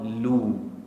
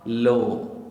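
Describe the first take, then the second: First: The vowel is rounded, sounding like u. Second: The vowel is open, sounding like o. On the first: The speaker calls it right. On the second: The speaker calls it wrong.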